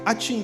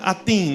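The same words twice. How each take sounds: First: The name is said so it sounds like a sneeze. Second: The name is said plainly, not like a sneeze.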